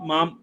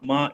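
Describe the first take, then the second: First: The word ends with a full m consonant. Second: The word ends with a nasalized vowel. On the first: The speaker calls it wrong. "किसी ने कुछ माम माम कहा है" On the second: The speaker calls it right. "उसको माँ ही बोलना है, हाँ माँ यही सही है"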